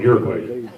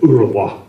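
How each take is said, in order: First: The name is said the usual American way. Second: The name is said the way they say it. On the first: This is how we say the name. "but we call it Uruguay" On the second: This is how others say the name. "They pronounce it Uruguay"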